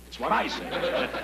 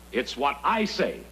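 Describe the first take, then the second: First: "I" lifted high and pressed, slowly; slow high-pitched "I"; higher stress on I. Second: Slow firm "I"; stress on I. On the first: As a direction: repeat the rule, pushing "I" up higher. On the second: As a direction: lean on "I" with a falling close, slowly. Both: Acted.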